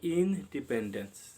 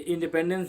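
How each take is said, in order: First: The word is split with a break after in. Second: The word is said smoothly without a break. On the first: Being kept dependent. "अलग अलग उच्चारण करें तो मिलेगा इन dependence" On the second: Freedom. "ये independence नहीं"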